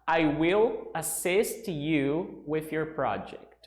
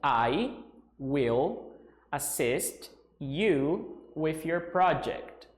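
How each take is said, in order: First: It is said at normal speed. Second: It is said more slowly.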